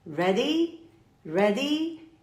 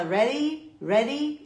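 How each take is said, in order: First: "Ready" with a clearly pronounced D, questioning rise; British emphasised D. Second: "Ready" with the D turned into a quick tapped r; American swallowed D. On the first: Teacher showing the British version she prefers, "Ready" with firm D. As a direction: hit the D in "Ready", British style. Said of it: "eu vou enfatizar o D". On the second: Teacher showing the American version, "Ready" with tapped D. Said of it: "o americano dá uma engolida no D". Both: Shown as a demonstration.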